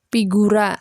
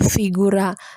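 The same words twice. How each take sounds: First: The word begins with a p sound. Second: The word begins with an f sound. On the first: The speaker calls it right. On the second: The speaker calls it wrong.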